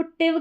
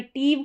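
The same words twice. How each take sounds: First: टिव with a short i, not a long टीव; short tiv. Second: टीव with a long drawn ee; long teev. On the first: (टिव छोटी इ के साथ, टीव नहीं) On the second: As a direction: stretch the vowel in टीव. (टीव लंबी ई के साथ) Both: Shown as a demonstration. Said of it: "short sound अगर टीव करके आपको प्रोनाउंस नहीं करना है".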